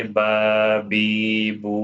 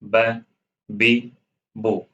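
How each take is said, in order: First: ب، بی، بو with each vowel drawn out long; stretched vowels. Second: ب، بی، بو said crisp, each vowel one short beat. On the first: Teacher demonstrating the wrong, overlong way to learners. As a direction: drag every vowel out too far. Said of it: "اگر آپ اس کو کھینچو گے". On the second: Teacher showing students the correct short vowels. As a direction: clip each vowel, no stretching. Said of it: "اس کو ایک حرکت ہی پڑھنی ہے". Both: Shown as a demonstration.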